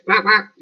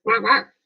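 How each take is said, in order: First: High squeaky quack quack; duck quacking. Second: High bright quack quack with a rise; duck quacking. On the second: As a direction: quack again, rising at the end. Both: Pretend. Imitating a duck for viewers.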